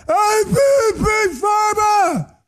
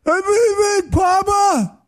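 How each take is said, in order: First: Much higher, slow drawn-out scream of the boast. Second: Much higher, slow shout of "Big Papa"; lunatic screaming. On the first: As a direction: yell it like a raving lunatic, stretched out. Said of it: "He's screaming again". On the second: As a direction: bellow "Papa" like a raving man. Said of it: "He's screaming like a lunatic again". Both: Retold or imitated.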